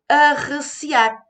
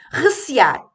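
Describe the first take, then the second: First: The word starts with an added 'a' sound. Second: The word starts directly with the 'r' sound. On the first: This is a popular, colloquial form. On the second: This is the standard form.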